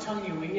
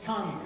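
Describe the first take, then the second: First: "tongue-ui" with an added "wee" ending, slowly; mispronounced tongue-ui. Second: "tongue" as a single clean syllable; just "tongue", nothing after; correct tongue. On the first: Friend quoting the learner's error, a slow "tongue-ui". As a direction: stretch it into "tongue-ui". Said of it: "my tongue-ui gets twisted up". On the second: Friend correcting him, a short one-syllable "tongue". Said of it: "It's not tongue-ui". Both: Retold or imitated.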